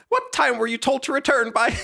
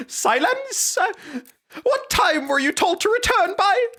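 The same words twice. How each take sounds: First: Higher character voice. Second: Much higher, louder squeaky falsetto; squeaky falsetto master. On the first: Streamer voicing the young master's scolding, higher pitched. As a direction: put on a snooty high-pitched master. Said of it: "I can't do that voice". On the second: Streamer redoing the young master in a squeaky falsetto. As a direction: squeal the order like a cartoon brat. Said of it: "this is a dog shit character voice". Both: Shown as a demonstration.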